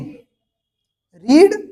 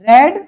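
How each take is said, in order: First: The vowel is long, as in 'reed'. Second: The vowel is short, as in 'red'. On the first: It is the present form of the verb. "रीड की first form होती है रीड" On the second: It is the past form of the verb. "Second form होती है रेड"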